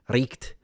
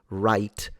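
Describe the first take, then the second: First: It is said with a guttural, Germanic-sounding ending. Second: It is said in the ordinary modern way. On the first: This is how the word was said before the Middle Ages. "it sounded almost Germ- Germanic, like really Germanic" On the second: This is how the word is said today. "a knight in the Middle Ages wouldn't say right"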